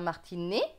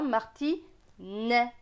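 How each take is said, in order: First: The final vowel is a closed é sound. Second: The final vowel is an open è sound. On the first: This is the speaker's own regional pronunciation. "Pour moi, ce sera martinet" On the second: This is how other regions pronounce it. "mais dans d'autres régions, ce sera martinet"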